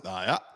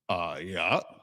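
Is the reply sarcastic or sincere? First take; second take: sincere; sarcastic. First: It is short, plain and sincere. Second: It is drawn out and sarcastic. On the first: The answer simply confirms the question. "make it short to be confirmational" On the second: The answer mocks the question as obvious. "the sarcastic ones ... draw it out to be a jerk"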